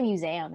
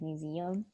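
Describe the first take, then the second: First: It is said with a Southern twang. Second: It is said with a standard pronunciation. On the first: This is the speaker's own habitual way of saying it. "I say a bunch of things really weird. Like I say museum" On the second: This is the way most people say it. "instead of museum"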